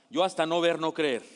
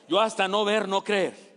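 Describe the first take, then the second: First: Said in the usual way. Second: Louder, firm skeptic's refusal; hammed-up doubting Thomas; emphatic doubt. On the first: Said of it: "¿Qué diría Tomás?". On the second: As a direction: dig in on YO, stubborn doubter. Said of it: "Tomás es el que duda".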